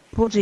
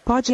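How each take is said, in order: First: "Pode" said with a closed o, as pôde; "Pode" with a closed vowel like "pode-ee" with o as in "avô"; "Pode" with a closed o, past tense pôde. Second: "Pode" said with an open o, as present-tense pode; "Pode" with the open o as in "avó"; "Pode" with a wide open o. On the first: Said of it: "Pode é a forma do passado". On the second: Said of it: "Pode é a forma do presente". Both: Shown as a demonstration.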